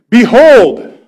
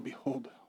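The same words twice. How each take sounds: First: It is called out loudly as a command. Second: It is muttered quietly, as if to oneself.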